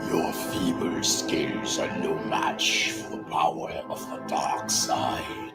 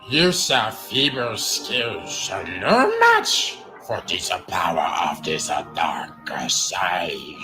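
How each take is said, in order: First: It is said in a dark Sith Lord voice. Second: It is said in the goofy Jar Jar voice.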